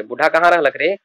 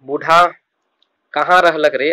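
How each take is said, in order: First: Said in the usual way. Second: Put-on raised call for the old man, a touch louder; grandmother calling out. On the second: Grandmother calls out to the boy asking where grandpa is, a touch louder. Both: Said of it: "नानी पूछ रही है".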